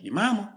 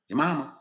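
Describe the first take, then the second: First: It is said lightly, with a smile. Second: It is said seriously, without a smile. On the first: It is meant as a joke. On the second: It is meant as a real insult.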